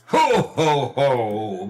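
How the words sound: It is said in a deep, merry voice.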